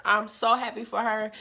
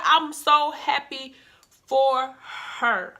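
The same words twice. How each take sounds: First: Said in the usual way. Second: Slow, emphatic happiness; I'm so happy for her, drawn out slow. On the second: Real, not acted. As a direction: stretch each word out slowly, savouring it. Repeats the line, first drawn out.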